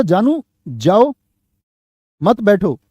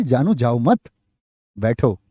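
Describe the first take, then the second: First: Slow "जानू जाओ", long break, "मत बैठो"; group मत with बैठो after a clear pause. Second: "जानू जाओ मत", break, then low "बैठो"; pause after मत. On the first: Teacher showing what was meant by the speaker, long pause after जाओ. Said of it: "उसने तो बोला था". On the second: Teacher showing how the listener misheard it, pause after मत. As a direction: attach मत to जाओ, dropping lower on बैठो. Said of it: "जानू ने क्या सोच लिया?". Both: Shown as a demonstration.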